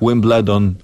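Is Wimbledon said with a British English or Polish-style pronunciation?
Polish-style. It is said with a Polish-style pronunciation. The speaker calls it wrong. "that's terrible"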